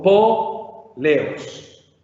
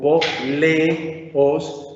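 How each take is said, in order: First: The two vowels are joined into one syllable. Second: The two vowels are split into separate syllables. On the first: The speaker calls it right. "sino como un po, leos, junto la epsilon y la omega" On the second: The speaker calls it wrong. "no le podemos leer como un hiato"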